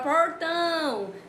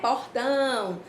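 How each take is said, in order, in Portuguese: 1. Ela é falada com sotaque do interior de São Paulo. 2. Ela é falada com sotaque nordestino brasileiro. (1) "É o caso da gente do, do interior de São Paulo, né? Fala portão" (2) "E aqui a gente fala"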